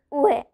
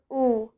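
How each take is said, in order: First: "ue" as two sounds, oo then eh; U E said wrongly. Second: "u" as one long oo; a single pure oo for "u". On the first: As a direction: misread "ue" with both letters sounded, oo-eh. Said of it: "we don't pronounce it as". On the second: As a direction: say "u" like the vowel in blue. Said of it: "we pronounce it as u". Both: Shown as a demonstration.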